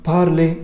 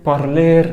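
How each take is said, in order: First: The word ends on a vowel, no r. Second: The word ends with an audible r sound. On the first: The speaker calls it right. "لا بارلي بارلي بارلي" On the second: The speaker calls it wrong. "فما تقولش بارلير بارلير"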